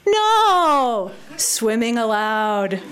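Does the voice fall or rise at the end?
fall. The voice falls at the end of the phrase. The sign is read as a plain statement.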